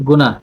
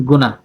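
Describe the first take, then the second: Both takes have the same delivery.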